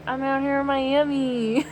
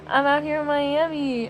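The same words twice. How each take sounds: First: Lightly bored lyric, half-hearted; uninterested imitation. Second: Bored, flat-toned lyric imitation; uninterested drawl. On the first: Vlogger mimicking the rapper's bored Miami line. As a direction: toss off the line with no interest. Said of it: "She sounds exactly like that". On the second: Imitating the rapper's line, mildly bored delivery. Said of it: "she just sounds so uninterested".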